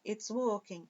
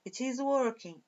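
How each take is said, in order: First: "it's" as a single syllable; contracted form. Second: Said in the usual way. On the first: Shown as a demonstration. Teacher repeating for students in short form, "it's" run together. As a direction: say "it's working" with it and is merged. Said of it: "Forma contraída aqui".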